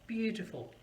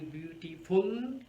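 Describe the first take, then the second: First: The stress is on the first syllable. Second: The stress is not on the first syllable. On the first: The speaker calls it right. "the stress is on the first syllable" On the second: The speaker calls it wrong. "it's not going to sound very good or natural"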